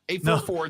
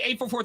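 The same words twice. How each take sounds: First: The digits are read slowly. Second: The digits are read quickly. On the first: The speaker calls it right. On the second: The speaker calls it wrong.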